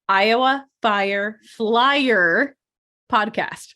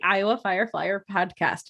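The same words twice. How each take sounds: First: It is said slowly and carefully. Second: It is said at normal, quick pace.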